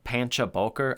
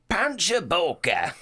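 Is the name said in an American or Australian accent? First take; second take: American; Australian. First: It is said in a plain American accent. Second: It is said in an Australian accent. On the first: "I'm sure I'm fucking up the announcement of that" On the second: "We'll say it in an Australian accent"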